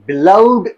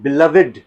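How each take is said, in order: First: The -ed ending joins the previous syllable. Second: The -ed ending is a separate syllable. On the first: The speaker calls it wrong. "बिलव्ड नहीं" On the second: The speaker calls it right. "It is बिलव्ड"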